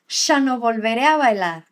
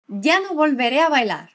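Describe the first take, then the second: First: The word ya begins with a sh sound. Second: The word ya begins with a y sound.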